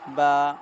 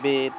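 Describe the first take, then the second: First: The letter name is said in Arabic style. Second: The letter name is said in Urdu style.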